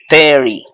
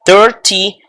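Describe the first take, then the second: First: "thirty" said as "therry", t turned to a quick tap; thirty, softened T. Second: "Thirty" with a clear middle t. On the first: Teacher shows the other form, "thirty" with tapped middle t. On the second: Teacher shows the first accepted form, "Thirty" with hard t. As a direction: say "Thirty" as thir-tee, t fully sounded. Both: Shown as a demonstration. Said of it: "o lo pueden pronunciar".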